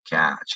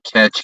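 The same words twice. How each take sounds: First: The vowel sounds like the one in cat. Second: The vowel sounds like the one in bet. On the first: The speaker calls it right. "notice I say ah" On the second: The speaker calls it wrong. "People say"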